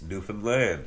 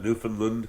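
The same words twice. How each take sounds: First: The stress is on the last syllable. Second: The stress is not on the last syllable. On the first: The speaker calls it right. "the emphasis is on the same syllables" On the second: The speaker calls it wrong. "it's not Newfoundland"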